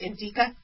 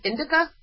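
First: The middle vowel is a long E. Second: The middle vowel is a short I. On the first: "I like calling it indica, but that's because I mispronounce everything" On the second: "he pronounced it indica, like indigo"

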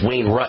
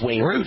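First: Root is said with a vowel like rut. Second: Root is said with the long oo vowel. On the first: This is how Midwesterners say the name. The speaker calls it wrong. "everyone in the Midwest gets it wrong and says" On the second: This is how the owner says the name. The speaker calls it right. "I might correct them and say it's"

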